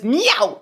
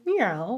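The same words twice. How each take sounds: First: The meow sounds harsh and not friendly. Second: The meow sounds soft and friendly. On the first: "but it's meow" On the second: "not just a friendly meow, like meow"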